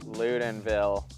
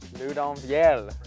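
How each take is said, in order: First: The name is said with English pronunciation. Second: The name is said with French pronunciation.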